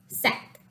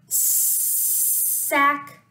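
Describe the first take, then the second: First: The word is said quickly as one smooth unit. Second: The word is stretched out slowly, sound by sound. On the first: "Say it fast. Yes" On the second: "Listen, say"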